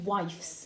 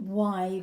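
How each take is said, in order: First: It has an F sound before the final S. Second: It has a V sound before the final S. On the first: The speaker calls it wrong. "if you say wifes, it doesn't quite sound right" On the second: The speaker calls it right. "change that F to a V"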